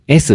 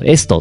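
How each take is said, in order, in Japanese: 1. この単語はsの音で終わります。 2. この単語はtの音で終わります。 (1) "S って言い直したら" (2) "堂々とエストって読んだら"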